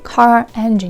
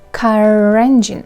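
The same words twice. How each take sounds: First: The two words are said separately, without linking. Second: The two words are joined with a linking R. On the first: The speaker calls it wrong. "So you don't say car engine" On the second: The speaker calls it right. "you should link it, pronounce it together"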